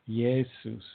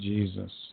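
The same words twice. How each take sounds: First: The name begins with a Y sound. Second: The name begins with a J sound. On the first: "They pronounced it like a Y" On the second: "eventually became"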